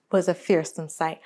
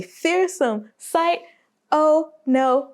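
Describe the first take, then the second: First: Said in the usual way. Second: Higher and slow on "a fearsome sight"; drawn-out high refrain. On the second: Acted. Repeated refrain, rising intensity.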